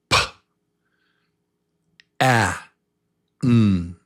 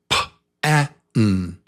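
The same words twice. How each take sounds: First: The sounds are said slowly, one by one. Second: The sounds are said quickly, close together. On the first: "say each sound with me"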